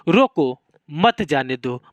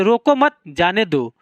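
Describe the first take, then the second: First: "रोको" on its own, pause, then "मत जाने दो" falling lower; pause after रोको. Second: "रोको मत" run together and raised, break, then "जाने दो" falling; pause after मत. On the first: Teacher showing that the comma means stop him, pause after "रोको". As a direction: break right after "रोको", keep "मत" with "जाने दो". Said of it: "मतलब मुझे रोक लो, मत जाने दो". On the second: Teacher showing that the comma means let me go, pause after "मत". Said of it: "मुझे जाने दो". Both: Shown as a demonstration.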